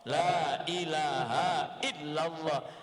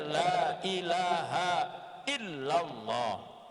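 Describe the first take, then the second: Both takes have the same delivery.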